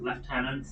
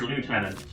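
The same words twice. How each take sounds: First: The first syllable sounds like 'left'. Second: The first syllable sounds like 'loo'. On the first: This is the usual British pronunciation. The speaker calls it wrong. "as a Brit I should pronounce it Lieutenant" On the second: This pronunciation follows the spelling 'lieu'. The speaker calls it right. "It's Lieutenant. You call it a day in lieu"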